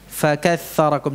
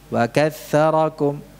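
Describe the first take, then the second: First: The first consonant is a strong, breathy f. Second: The first consonant is weak, with little breath. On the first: The speaker calls it right. "Jadi aliran nafasnya kuat" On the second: The speaker calls it wrong. "Mengucapkan fa tidak jelas karena aliran nafasnya lemah"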